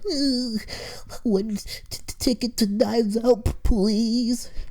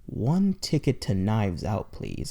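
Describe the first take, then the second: First: It is said with stutters and nervous hesitation. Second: It is said smoothly and confidently.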